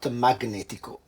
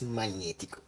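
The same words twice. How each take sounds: First: The g and n are pronounced as separate sounds. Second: The gn is pronounced as one 'ny' sound. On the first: The speaker calls it wrong. "It's not magnetico" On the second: The speaker calls it right. "it's magnetico"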